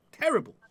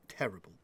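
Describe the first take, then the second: First: High-pitched groaning "Terrible". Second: Low muttered "Terrible". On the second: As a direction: mutter it under your breath. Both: Shown as a demonstration.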